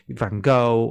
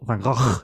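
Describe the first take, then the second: First: The name is said the common English way. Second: The name is said closer to its native form. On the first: The speaker calls it wrong. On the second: The speaker calls it right.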